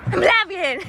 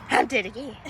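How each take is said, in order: First: High, gasping return to life; hammed-up high resurrection cry; mock movie revival. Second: Hammed-up dying line, dropping back down; movie death. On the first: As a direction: burst back to life theatrically. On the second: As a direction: expire again in mock drama. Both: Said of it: "Okay, movie death".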